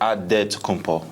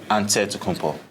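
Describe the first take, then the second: First: It is said with a D sound. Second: It is said with an NT sound. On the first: It is the Nigerian way of saying it. "In the Nigerian way, you gotta say it with a D" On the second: It is the Greek way of saying it. "in the Greek way, you say it with an N T"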